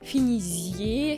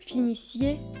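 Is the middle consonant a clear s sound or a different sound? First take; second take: different sound; clear s. First: The middle consonant is not a clear s sound. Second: The middle consonant is a clear s sound. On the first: The speaker calls it wrong. "on ne doit jamais prononcer" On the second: The speaker calls it right. "on entend bien la double consonne S"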